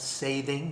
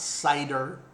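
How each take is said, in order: First: The word is said like 'sathing'. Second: The word is said like 'cider'. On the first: The speaker calls it right. "I call it sathing" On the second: The speaker calls it wrong. "and it's not cider"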